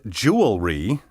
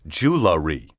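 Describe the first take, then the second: First: It sounds like 'jewel' followed by 'ree'. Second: It sounds like 'jew' then 'la' then 'ree'. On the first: The speaker calls it right. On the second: The speaker calls it wrong.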